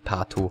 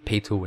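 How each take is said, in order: First: The first vowel is an open 'ah' sound. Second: The first vowel is an 'ay' glide sound. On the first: "the German-ish version Pato" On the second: "the English version Peito"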